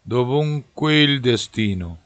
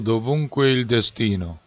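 Both takes have the same delivery.

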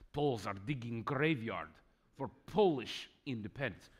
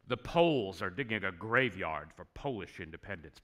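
First: It is said in a put-on Russian accent. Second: It is said in the speaker's normal accent.

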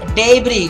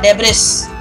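First: The S is silent and not pronounced. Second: The S is pronounced aloud. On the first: The speaker calls it right. "The word is debris" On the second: The speaker calls it wrong. "It's not debris"

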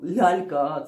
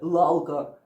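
First: The l sounds are soft. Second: The l sounds are hard. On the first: The speaker calls it right. "м'які звуки в українській мові" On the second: The speaker calls it wrong. "це буде «лалка». Ну це ж смішно"

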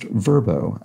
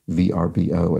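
First: It is said as one word. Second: It is said as separate letters. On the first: The speaker calls it right. "is pronounced Verbo" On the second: The speaker calls it wrong. "as I pronounced it letter by letter"

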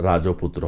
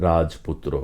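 No difference in how they are said.

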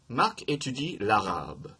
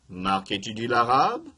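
First: The voice falls at the end. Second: The voice rises at the end. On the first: It states a fact. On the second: It asks a question.

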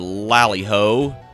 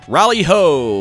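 First: The first word begins with an L sound. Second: The first word begins with an R sound. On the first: The speaker calls it right. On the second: The speaker calls it wrong.

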